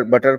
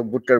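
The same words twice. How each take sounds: First: बटर with an open "uh" in the first syllable; Indian-style बटर. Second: बुटर with a rounded "oo" as in "put"; British-style बुटर. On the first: Teacher comparing accents, बटर with an open first vowel. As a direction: say बटर with "but" at the start. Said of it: "हम लोग बटर बुलाते हैं". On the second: Teacher imitating British speakers, बुटर with a rounded "oo". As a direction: round the first vowel of बुटर to a short "oo". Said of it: "ऐसे तो बुटर बुलाते हैं". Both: Shown as a demonstration.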